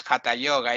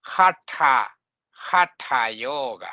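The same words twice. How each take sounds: First: Hatha said quickly as HA-ta; unaspirated, quick Hatha Yoga; wrong pronunciation. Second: Hatha split as hat-HA with curled tongue; careful, separated syllables in Hatha Yoga; correct retroflex pronunciation. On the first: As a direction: run Hatha Yoga together with a plain t. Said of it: "it's not Hatha Yoga". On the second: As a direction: aspirate the tha in Hatha. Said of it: "with the tongue coiling up". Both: Shown as a demonstration.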